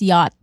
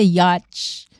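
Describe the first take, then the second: First: The word ends in a t sound. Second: The word ends in a ch sound. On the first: The speaker calls it right. "it's yacht" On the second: The speaker calls it wrong. "hindi siya yatch"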